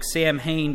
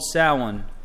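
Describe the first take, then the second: First: The word is pronounced the way it is spelled. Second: The word is pronounced the traditional way. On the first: The speaker calls it wrong. "It actually looks more like Samhain" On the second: The speaker calls it right. "it's called Samhain, is how they would pronounce it"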